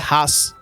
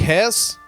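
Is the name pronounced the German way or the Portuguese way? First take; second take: German; Portuguese. First: It is pronounced with German sounds, like 'Hass'. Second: It is pronounced with Portuguese sounds, like 'Res'.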